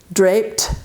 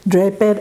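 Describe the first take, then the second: First: The ending is said as a t sound. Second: The ending is said as an extra syllable. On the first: The speaker calls it right. "la ed se va a pronunciar como T" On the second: The speaker calls it wrong. "es un error"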